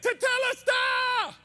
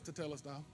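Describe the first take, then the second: First: The word is shouted loudly and forcefully. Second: The word is said quietly and flatly.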